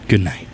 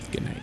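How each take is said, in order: First: It is said with much more energy. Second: It is said hesitantly, with little energy. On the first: The speaker calls it right. "I'll say it with more gusto" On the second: The speaker calls it wrong. "That was a really awkward good night"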